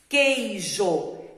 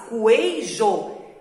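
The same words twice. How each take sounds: First: The U after the Q is silent. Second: The U after the Q is pronounced. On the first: The speaker calls it right. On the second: The speaker calls it wrong.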